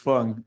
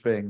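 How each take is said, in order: First: The vowel sounds like the u in fun. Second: The vowel sounds like the a in fang. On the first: The speaker calls it right. "It's Fung" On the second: The speaker calls it wrong. "everybody says Fang because that's the way it looks in English"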